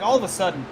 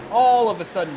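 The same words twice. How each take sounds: First: Said in the usual way. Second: Louder, with a heavy stress on "all"; emphatic repeat. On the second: Real, not acted. Commentator stressing the driver's late surge, emphatic. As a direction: stretch and punch ALL in "all of a sudden".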